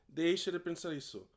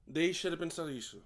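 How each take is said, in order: Both takes have the same delivery.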